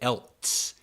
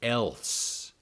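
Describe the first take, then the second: First: A t sound is added before the s. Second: No t sound is heard before the s. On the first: The speaker calls it wrong. "I don't know why people put a T in this word" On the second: The speaker calls it right. "E L S E has no T"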